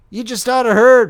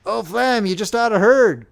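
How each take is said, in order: First: Louder, more insistent; eager repeat. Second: High, excited call; bursting to share the news; eager. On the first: Soldier insisting the youth listen, louder and eager. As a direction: press it even harder. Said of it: "repeated the other". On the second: Soldier rushing up with great news, eager. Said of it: "cried one eagerly". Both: A narrator's reading.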